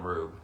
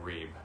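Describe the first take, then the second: First: The vowel is a long 'oo' sound. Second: The vowel is a long 'ee' sound. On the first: The speaker calls it wrong. "I've always called him Rube" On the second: The speaker calls it right. "It's Elliot Reeb"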